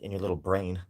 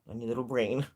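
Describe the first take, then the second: First: It is said in a mocking, insulting tone. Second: It is said in a sweet, cute tone.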